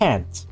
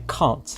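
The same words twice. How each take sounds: First: It is said with an American vowel. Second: It is said with a British vowel. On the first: "I don't say can't" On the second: "That's the most British you can get out of me"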